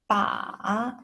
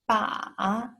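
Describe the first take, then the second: The two takes are said the same way.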